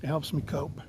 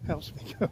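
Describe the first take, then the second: First: Said in the usual way. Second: Breathy amused aside under your breath; laughing whisper. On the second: Real, not acted. Whispered, laughing repeat of the joke.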